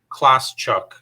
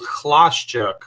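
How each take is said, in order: First: The name sounds like two English words. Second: The name has soft Polish consonant sounds. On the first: "So I just say it's two words" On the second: "originally my last name in Polish it's it's called Chlaszczuk"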